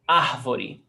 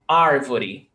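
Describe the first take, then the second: First: The R is breathy, like an h sound. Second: The R is neither breathy nor rolled. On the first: This is how it is said in the speaker's home region. "where I come from, we do the aspiration" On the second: This is how it is said in inland São Paulo, Minas Gerais and Goiás. "in the country of São Paulo, of Minas Gerais, Goiás, they do ar"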